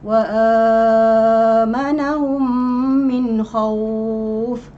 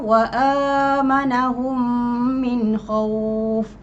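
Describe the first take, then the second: First: The long vowel is held for six beats. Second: The long vowel is held for two beats. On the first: "enam harakat"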